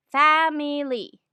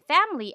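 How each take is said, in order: First: "family" slowed, fa-mi-ly, middle vowel sounded; Tagalog English pronunciation. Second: Said in the usual way. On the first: Shown as a demonstration. Teacher shows the school-taught way, syllable by syllable "family". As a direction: say "family" in three full Filipino syllables. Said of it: "This is what we call the Tagalog English accent". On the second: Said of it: "We were taught to pronounce".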